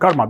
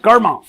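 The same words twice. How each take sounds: First: The word is said in an English accent. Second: The word is said in a plain accent. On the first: "accent से बोलते हैं कर्मा" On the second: "अंग्रेजी में कहते हैं कर्मा"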